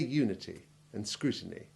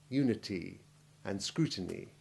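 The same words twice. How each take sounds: First: The final vowels are short and clipped. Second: The final vowels are lengthened, like knee. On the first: The speaker calls it right. "Say unity and scrutiny" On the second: The speaker calls it wrong. "not unity and scrutiny"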